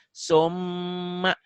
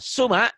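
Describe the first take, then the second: First: The m sound is doubled, held and nasal. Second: The m sound is short and single. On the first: "mimnya jadi double" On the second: "asalnya dibacanya suma"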